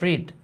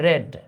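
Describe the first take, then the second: First: The vowel is long, like 'reed'. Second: The vowel is short, like 'red'. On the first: It is the present form. The speaker calls it wrong. "Not রিড" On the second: It is the past participle form. The speaker calls it right. "যখন V three হয়ে যায় তখন এটার উচ্চারণ হয় রেড"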